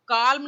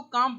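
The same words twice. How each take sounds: First: काल्म with the L sounded, kaalm; काल्म spoken as kaalm, L fully voiced; wrong pronunciation of calm. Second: काम said kaam, no L sound; काम pronounced kaam, L dropped; silent L in calm. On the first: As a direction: say काल्म, pronouncing the L. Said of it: "काल्म नहीं पढ़ते हैं". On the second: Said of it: "एल silent रहता है". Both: Shown as a demonstration.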